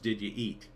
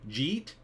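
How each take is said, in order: First: The words are said as three separate syllables. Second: The words are squeezed into one short syllable. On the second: "ten cringy New Jersey pronunciations"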